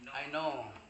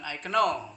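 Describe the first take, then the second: First: No K sound is heard before the N. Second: A K sound is heard before the N. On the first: The speaker calls it right. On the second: The speaker calls it wrong.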